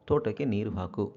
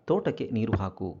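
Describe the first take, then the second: The two takes are said the same way.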